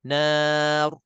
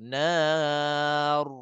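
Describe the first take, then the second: First: The final r is short with little trill. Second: The final r is rolled with a long trill. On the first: The speaker calls it right. "Tak perlu kita nak tarik lebih" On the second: The speaker calls it wrong. "Rrr. Itu yang tak nak"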